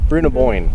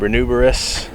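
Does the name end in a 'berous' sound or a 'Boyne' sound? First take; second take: Boyne; berous. First: The name ends with a 'Boyne' sound. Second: The name ends with a 'berous' sound. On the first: The speaker calls it right. "I think it's Bruna Bruna Boyne" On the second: The speaker calls it wrong. "I know it's not Brunuberous"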